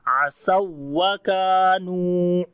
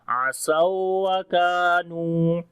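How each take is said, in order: First: The waw sound is raised with sharp stress. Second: The waw sound is drawn out long without stress. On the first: The speaker calls it right. "वाव की आवाज को ऊंचा करेंगे" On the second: The speaker calls it wrong. "पहली वाव को लंबा कर रहे हैं, खींच के पढ़ रहे हैं"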